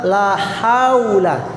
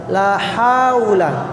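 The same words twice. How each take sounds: First: The word is said as haula, ha before u. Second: The word is said as haula, ha before u.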